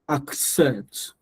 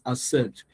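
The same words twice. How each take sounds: First: A k sound is heard before the s. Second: The k sound before the s is dropped. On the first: The speaker calls it right. "But there is a K there" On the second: The speaker calls it wrong. "Some of us don't pronounce our ac"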